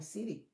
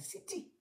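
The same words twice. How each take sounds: First: The middle consonant sounds like a soft D. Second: The middle consonant is a clear T. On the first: This is the common American way. The speaker calls it wrong. "city is C I D D Y" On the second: This is the proper English way. The speaker calls it right. "C I T Y, because the T is pronounced"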